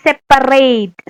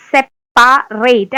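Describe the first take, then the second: First: Said in the usual way. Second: separate split slowly syllable by syllable. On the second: Shown as a demonstration. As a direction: spell it out slowly, സെപ്പ-റേറ്റ്. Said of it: "അങ്ങനെ പഠിക്കാം". (Separate പതുക്കെ പിരിച്ച്)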